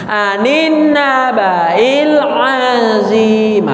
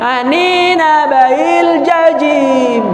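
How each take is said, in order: First: The last word begins with a vowel sound. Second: The last word begins with a j sound. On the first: The speaker calls it right. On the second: The speaker calls it wrong. "Enggak jajim nah"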